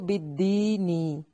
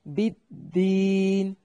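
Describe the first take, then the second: First: The word ends with a lengthened i vowel. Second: The word ends on the n sound.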